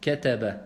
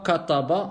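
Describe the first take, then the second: First: The consonants are light and thin. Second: The consonants are heavy and emphatic. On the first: The speaker calls it right. "on dit kataba" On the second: The speaker calls it wrong. "on dit pas kataba"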